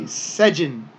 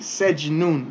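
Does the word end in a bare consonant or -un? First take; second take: bare consonant; -un. First: The word ends on a bare consonant. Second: The word ends with an added -un sound. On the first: The reader stops after this word. The speaker calls it right. "We're going to say sejin" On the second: This is the full form with its ending. The speaker calls it wrong. "we're not going to say sejnun because we're stopping here"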